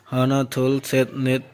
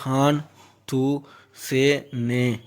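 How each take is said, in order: First: Each number word is said in its full form. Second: Each number word is clipped to a shorter form.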